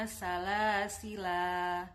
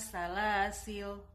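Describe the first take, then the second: First: The word ends with a long final vowel. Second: The word ends on a bare consonant. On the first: "bisa dibaca panjang ketika wakof" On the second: "atau bisa dibaca sukun"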